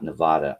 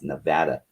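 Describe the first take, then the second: First: The middle vowel sounds like the one in father. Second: The middle vowel sounds like the one in cat. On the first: The speaker calls it wrong. "it's not Nevada, I will fight you over that" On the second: The speaker calls it right. "You people learn how to say it. It's Nevada"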